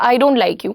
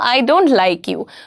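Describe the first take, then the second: First: It is said in a flat, neutral tone. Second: It is said with strong emotion.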